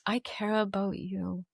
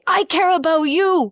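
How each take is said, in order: First: It is said in a soft, gentle tone. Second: It is said in a pushy, hurried tone.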